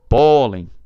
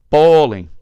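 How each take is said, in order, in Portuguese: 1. A sílaba tônica é a primeira. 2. A sílaba tônica é a primeira.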